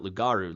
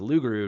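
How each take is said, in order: First: The middle syllable has an 'ah' vowel. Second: The middle syllable has an 'oo' vowel. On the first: The speaker calls it wrong. "not Lugaru, like I thought" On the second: The speaker calls it right. "so it's pronounced Luguru"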